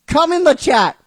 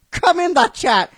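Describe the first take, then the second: No difference in how they are said.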